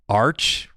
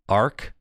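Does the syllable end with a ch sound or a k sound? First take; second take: ch sound; k sound. First: It ends with a ch sound. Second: It ends with a k sound. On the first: "like Arch and Arc, you could say it either way" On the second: "I think it's arc. Like an arc"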